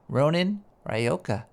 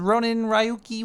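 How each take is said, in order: First: The name is said slowly and carefully. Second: The name is said at a normal pace. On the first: "Let's let's do it nice and slow" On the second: "I can't even pronounce this here"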